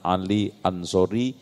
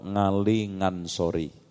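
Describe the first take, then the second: First: The names begin with a plain vowel. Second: The names begin with a Javanese ng sound.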